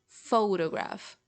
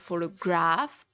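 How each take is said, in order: First: The stress is on the first syllable. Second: The stress is not on the first syllable. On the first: The speaker calls it right. "the strongest syllable of it is pho" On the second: The speaker calls it wrong. "It's not like photograph"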